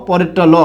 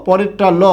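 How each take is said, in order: The two takes are said the same way.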